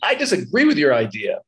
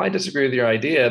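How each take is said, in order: First: It is said in an angry, hostile tone. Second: It is said in a calm, mild tone. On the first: The speaker is hostile toward the listener. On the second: The disagreement is no big deal.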